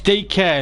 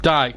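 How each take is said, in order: First: The name is said as two syllables. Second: The name is said as one syllable. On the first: The speaker calls it right. "it's D K" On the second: The speaker calls it wrong.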